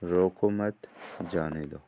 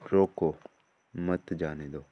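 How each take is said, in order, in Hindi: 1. विराम दूसरे शब्द के ठीक बाद आता है। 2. विराम पहले शब्द के ठीक बाद आता है। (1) "छोड़ दो।" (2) "भाव पकड़ लो।"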